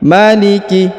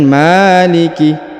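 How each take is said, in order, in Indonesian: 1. Semua vokal pendek, masing-masing satu ketukan. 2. Vokal pertama dibaca panjang. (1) "dia dibaca satu harokat ya" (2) "bukan maliki"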